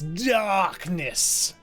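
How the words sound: The word is said in a dramatic, exaggerated way. The speaker calls it right. "you have to say it as if you're in a Kingdom Hearts game"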